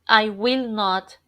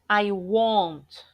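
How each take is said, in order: First: Will not is said as two full words. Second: Will not is shortened into one syllable.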